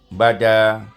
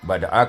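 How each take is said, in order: First: The glottal stop becomes a long final vowel. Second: It ends with a glottal stop plus short vowel. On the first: The stop is replaced by a long vowel in this reading tradition. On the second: The word is read in connected speech.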